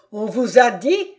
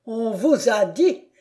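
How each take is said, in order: First: Angrier repeat. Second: Bitter mocking repeat. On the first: Acted. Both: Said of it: "répéta le comte".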